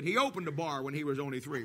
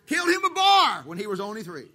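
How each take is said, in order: First: Much lower and softer, dry throwaway; quiet deadpan punchline; deadpan joke version. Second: Louder, punchy sung-out line; sung, belt the old lyric out proudly; sung, belted theme song lyric. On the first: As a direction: mutter the gag lyric dryly. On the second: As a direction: original lyric sung out loud. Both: Retold or imitated. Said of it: "Now they changed it".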